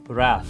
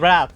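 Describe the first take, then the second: First: The word ends with a 'th' sound. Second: The word ends with a plain 't' sound. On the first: "I know how to say the word like wrath" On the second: "just say rat, it's fine"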